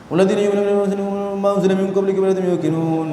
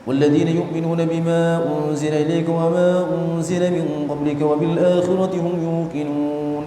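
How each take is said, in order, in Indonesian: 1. Ayat ini dibaca dengan kecepatan sangat cepat. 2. Ayat ini dibaca dengan kecepatan cepat. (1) "Yang lebih cepat lagi ada namanya ma'thum" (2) "Kalau hadar itu kayak gini"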